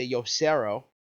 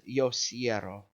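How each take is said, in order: First: "yo cerro" said with a plain e, as the mistake; the wrong "cerro", no stem change. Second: "yo cierro" with the ie stem, as the correct form; the correct "cierro", ie diphthong; right stem. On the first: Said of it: "you're not going to say yo cerro". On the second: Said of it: "It's yo cierro". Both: Shown as a demonstration.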